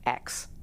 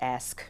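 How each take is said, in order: First: The word ends with a 'k' then 's' sound. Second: The word ends with an 's' then 'k' sound. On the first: "everybody would duck like an axe" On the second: "the word ask"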